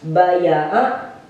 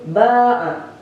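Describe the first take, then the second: First: A y sound separates two short a vowels. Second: A single long a vowel replaces the y. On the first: This is the word's original underlying form. "Asalnya itu dibaca baya'a" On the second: This is the form actually used. "dikolak kepada alif, jadi dibacanya itu ba'a"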